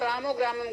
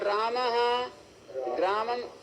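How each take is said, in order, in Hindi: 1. शब्द बिना रुके आपस में जुड़कर बोले जाते हैं। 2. दोनों शब्दों के बीच विराम होता है। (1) "संहिता में बोलोगे तो" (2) "आपको रुक रुक करके बोलना पड़ेगा, राम विराम देना पड़ेगा"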